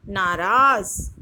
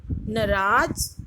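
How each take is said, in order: First: नाराज slow, with long aa and z ending; नाराज said slowly as naaraaz; correct spelling said. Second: नाराज slow, short first vowel, like naraj; नाराज said slowly with short a and j; wrong spelling said. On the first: (नाराज धीरे, लंबा आ, अंत में ज़) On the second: (नाराज धीरे, छोटा अ, नराज जैसा) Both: Shown as a demonstration. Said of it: "कुछ अशुद्ध शब्द हैं और कुछ शुद्ध शब्द हैं".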